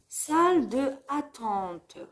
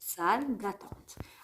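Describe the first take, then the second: First: The vowel of 'de' is fully pronounced. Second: The vowel of 'de' is dropped and linked. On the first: The speaker calls it wrong. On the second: The speaker calls it right.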